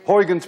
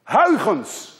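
First: The name is said with English sounds. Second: The name is said with Dutch sounds. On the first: "I will be kind to you and call it today Huygens principle" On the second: "Let alone that you can say the combination Huygens"

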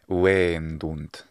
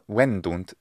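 First: The first vowel is held long. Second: The first vowel is kept short. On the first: It means they sell. The speaker calls it right. "getting the long vowels here in wendunt" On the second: It would be a different word. The speaker calls it wrong. "if we say it with a short vowel"

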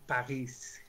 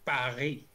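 First: The word ends with an audible s sound. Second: The word ends without an s sound. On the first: The speaker calls it wrong. "não Paris, com um S no final" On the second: The speaker calls it right. "Os franceses, como curiosidade, falam a cidade de Paris"

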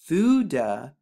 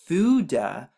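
The two takes are said the same way.

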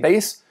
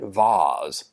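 First: The word is said the everyday way. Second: The word is said a fancier way. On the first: "I usually say vase" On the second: "I'm going to try pronouncing it vase. It sounds fancy"

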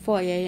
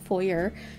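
First: It is said the Canadian way. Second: It is said a non-Canadian way. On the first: "I'm from Canada, so we pronounce it foyer" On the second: "and not foyer"

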